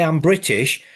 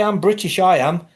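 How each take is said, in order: First: Said in the usual way. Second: Higher, smug mock Englishman. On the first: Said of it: "You don't hear a Scotsman say". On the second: Mocking the English who insist they're British, smug higher mimicry. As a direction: puff up like a proud Brit. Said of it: "But the English".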